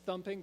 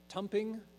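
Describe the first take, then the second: First: The word begins with a TH sound. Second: The word begins with a plain T sound. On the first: It is the standard way of saying it. "not a thumping" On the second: It is the local dialect way of saying it. "they pronounce it just as the T's"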